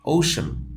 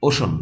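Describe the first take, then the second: First: "ওশান" with ou glide; falling model "ওশান", long first vowel; corrected pronunciation. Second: "ওশান" with a short pure o; flattened first vowel "o-shon"; wrong pronunciation. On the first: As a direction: round "ওশান" into "ou-shun". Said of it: "এটা হচ্ছে". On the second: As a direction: say "ওশান" without the u glide. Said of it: "ওশান না". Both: Shown as a demonstration.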